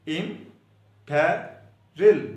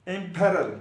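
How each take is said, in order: First: Imperil stretched out very slowly, syllable by syllable; slow, drawn-out imperil. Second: Said in the usual way. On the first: Shown as a demonstration. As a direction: spell out imperil slowly for students. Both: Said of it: "spelling सुन ले इसके".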